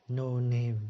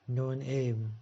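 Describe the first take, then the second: The two takes are said the same way.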